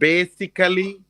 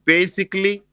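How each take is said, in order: First: The ending is said with a full extra vowel. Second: The ending is said without the extra vowel. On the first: The speaker calls it wrong. "So it's not basically" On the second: The speaker calls it right. "It's like basically"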